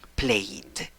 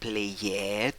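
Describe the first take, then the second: First: The ending is only a plain 'd' sound. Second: The ending is an extra 'ed' syllable. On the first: The speaker calls it right. "sino solo como una d" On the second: The speaker calls it wrong. "esa ed no suena como played"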